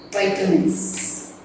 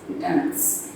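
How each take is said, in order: First: Long i opening "vitamins", like "bite". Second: Short i opening "Vitamins", like "bit", barely voiced. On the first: Teacher naming next topic, "vitamins" said VYE-tuh-mins. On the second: Teacher repeating next topic, "Vitamins" said VIT-uh-mins. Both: Shown as a demonstration. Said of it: "Vitamins or vitamins".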